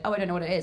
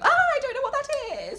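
First: It is said in a calm, grounded voice. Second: It is said in a shrill, small voice.

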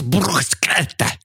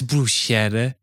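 First: The word is said with heavy, explosive consonants. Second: The word is said plainly, without heavy plosives. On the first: This is the pronunciation being insisted on. The speaker calls it right. "Very plosive heavy" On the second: This is the pronunciation being rejected. The speaker calls it wrong. "don't call this bruschetta"

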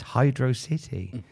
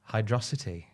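First: The name ends with the word "city". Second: The name ends with an "-osity" sound. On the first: The speaker calls it right. "It's Hydro City because it's a city with water in it" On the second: The speaker calls it wrong. "that level's pronounced Hydrosity"

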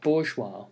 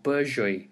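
First: The word is said in its usual French form. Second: The word is said in a Russianized form.

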